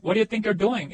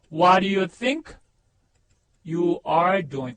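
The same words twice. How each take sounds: First: Connected, fluent question with YOU'RE contracted; joined-up natural version. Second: Word by word, very drawn out; careful, separated teaching pronunciation; slow model sentence. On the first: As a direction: run the words together at normal speed. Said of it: "합쳐보세요". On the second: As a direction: lay out WHAT DO YOU THINK, pause, YOU ARE DOING. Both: Shown as a demonstration.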